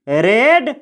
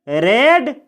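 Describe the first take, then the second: Both takes have the same delivery.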